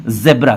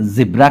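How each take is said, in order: First: ज़ेब्रा with an e vowel, zeb-ra; the British version of ज़ेब्रा, short "e"; British-style zebra. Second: जिब्रा with an i vowel, zib-ra; the American version of जिब्रा, "i" first; American-style zibra. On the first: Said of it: "British accent में ज़ेब्रा". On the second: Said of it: "American accent में जिब्रा कहते हैं". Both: Shown as a demonstration.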